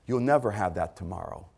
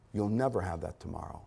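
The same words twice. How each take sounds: First: "never" leaned on, the warning said low and grave; stressed warning. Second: The repeat dropped much softer, almost under the breath; hushed echo. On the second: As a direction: let the repeat fall away to a hush. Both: Shown as a demonstration.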